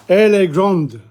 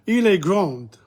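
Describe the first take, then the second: First: Final d sounded in grande; feminine form. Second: Final d silent in grand; grand ends on the vowel, no d; masculine form. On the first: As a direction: grande with a clear d at the end. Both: Shown as a demonstration. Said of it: "You pronounce the end part".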